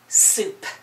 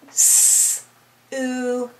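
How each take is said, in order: First: The word is said smoothly as one unit. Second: The word is broken into separate sounds.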